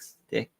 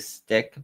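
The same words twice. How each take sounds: First: The syllable is lightly and weakly pronounced. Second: The syllable is fully and strongly pronounced. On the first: "not as pronounced on it" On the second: "you could say stick"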